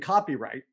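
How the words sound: It is said as one single word. It means legal protection of creative work. "not one word"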